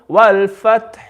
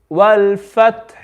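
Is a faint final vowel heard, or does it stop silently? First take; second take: faint vowel; faint vowel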